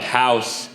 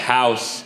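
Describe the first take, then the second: First: The s sound is lisped and thick. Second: The s sound is lisped and thick.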